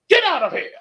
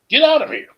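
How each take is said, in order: First: It is said forcefully with much energy. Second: It is said flatly with little energy.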